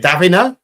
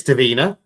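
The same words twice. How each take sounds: First: "Davina" said DAV-in-uh, with a short i; second guess at the name. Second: "Davina" said duh-VEE-nuh, short first vowel; first guess at the name. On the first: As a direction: try "Davina" with the first syllable stressed. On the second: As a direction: try "Davina" with a short weak first syllable. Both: Shown as a demonstration. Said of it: "Or is it Davina?".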